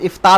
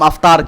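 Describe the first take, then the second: First: The word starts with an 'i' vowel. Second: The word starts with an 'a' vowel. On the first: The speaker calls it right. "इफ्तार होना चाहिए बाबी फ़ाल के वज़न पे" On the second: The speaker calls it wrong. "हम अफ्तार कह दे तो वो गलत है"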